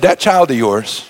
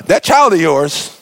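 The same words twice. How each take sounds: First: Put-on slow, low, pointed "That child of yours"; disowning jab. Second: Put-on slow, pointed "That child of yours", stress on "child"; the parent's cold jab to the spouse. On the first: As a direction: drag out "child" with cold disdain. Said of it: "You've said". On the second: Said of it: "your mama, your daddy told the other one".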